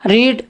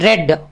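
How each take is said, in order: First: The vowel is a long 'ee' sound. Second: The vowel is a short 'e' sound. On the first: It is the present tense. "இதை நிகழ்காலத்துக்கு ரீடுன்னு படிக்கணும்" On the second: It is the past tense. "Spelling மாறாது, ஆனால் உச்சரிப்பு மாறுது. எப்படி ரெட்"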